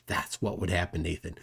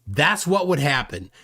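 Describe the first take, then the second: First: Hushed threat. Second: Said in the usual way. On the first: Real, not acted. Streamer addressing Nathan, hushed menacing tone. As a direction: drop much softer and lower, a quiet menacing aside. Repeats line, second take hushed.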